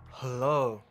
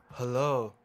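Both takes have the same delivery.

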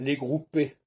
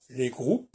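First: The word ends with a final 'é' vowel. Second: The word ends without a final 'é' vowel. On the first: The speaker calls it right. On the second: The speaker calls it wrong.

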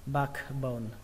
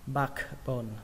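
The two takes are said the same way.

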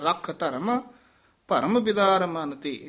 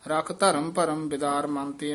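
First: There is a short pause after the first two words. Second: The words run on without a pause. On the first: The speaker calls it right. "ਠਮਕ ਲਾ ਕੇ ਬੋਲਣਾ" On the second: The speaker calls it wrong. "ਆਮ ... ਉਹੀ ਕਹਿ ਜਾਂਦੇ ਨੇ"

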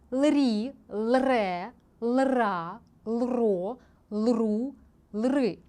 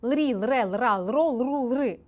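First: The syllables are read slowly. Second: The syllables are read quickly. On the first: "Тепер пробуємо повільно прочитати без олівця" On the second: "Тепер я спробую швидше"

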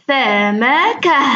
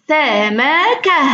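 The two takes are said the same way.

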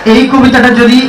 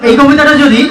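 The two takes are said the same way.

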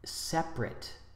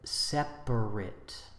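First: The word is said with two syllables. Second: The word is said with three syllables. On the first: "The adjective separate, two syllables" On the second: "instead of separate"

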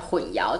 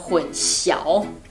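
First: The second syllable is pronounced yáo. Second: The second syllable is pronounced xiáo. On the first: This is the reading used in Taiwan. "我们都是讲混淆" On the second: This is the reading used in mainland China. "中国大陆的观众会念成混淆"

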